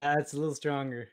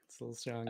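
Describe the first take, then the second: First: Said in the usual way. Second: Thick Maritime accent, softer; stronger Maritime accent. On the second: Shown as a demonstration. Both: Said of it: "Does your accent really come out".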